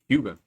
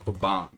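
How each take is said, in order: First: The name begins with a 'cue' sound. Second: The name begins with a 'qua' sound. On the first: The speaker calls it right. "Like the cue ball" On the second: The speaker calls it wrong. "That's what I've been saying"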